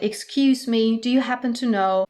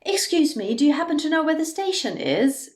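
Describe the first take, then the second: First: Said in the usual way. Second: "Excuse me" starts higher, the question rises up to "station"; polite intonation. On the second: Shown as a demonstration. Teacher models polite intonation for German learners, higher and rising. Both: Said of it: "if you then mind your intonation".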